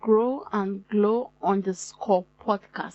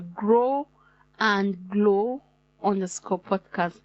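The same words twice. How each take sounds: First: The phrase is said at a normal speed. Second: The phrase is said slowly and carefully.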